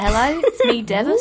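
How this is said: It is said in a Birmingham accent.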